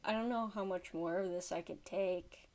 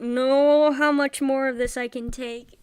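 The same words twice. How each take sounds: First: Low, soft and worn down; subdued, defeated exasperation; weary exasperation. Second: Loudly fed up, at breaking point; loud, emphatic outburst of frustration; loud exasperation. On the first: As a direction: say it quietly, at the end of your patience. Worn down by creepy clip. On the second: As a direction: raise your voice in exasperated disbelief. Fed up with creepy clip. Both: Real, not acted.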